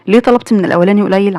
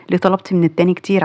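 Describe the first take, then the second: First: قليل pressed, questioning rise; contrastive stress on قليل. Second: كتير held long and stressed; contrastive stress on كتير. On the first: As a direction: lean on قليل to set it against كتير. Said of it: "عشان أنت عارفة إن مقدرته صغيرة". (ضغط على كلمة قليل) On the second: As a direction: lean on كتير against قليل. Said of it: "عشان أنت عارفة إن مقدرته كبيرة". (ضغط على كلمة كتير) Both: Shown as a demonstration.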